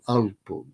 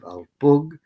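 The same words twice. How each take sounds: First: The stress is on the first syllable. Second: The stress is on the last syllable.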